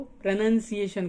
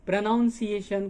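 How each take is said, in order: First: "प्रोनंसिएशन" with a short "nun" second syllable; short second vowel. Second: "प्रोनाउंसिएशन" with an "ow" in the second syllable; full "ow" vowel. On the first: Teacher shows a differing accent, "प्रोनंसिएशन" with a short "nun". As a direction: say "प्रोनंसिएशन" as pro-nun-ciation. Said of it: "कह रहा हूँ". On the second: Teacher contrasts two sayings, "प्रोनाउंसिएशन" with a clear "noun". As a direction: say "प्रोनाउंसिएशन" as pro-noun-ciation. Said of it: "को प्रोनंसिएशन कह रहा हूँ". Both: Shown as a demonstration.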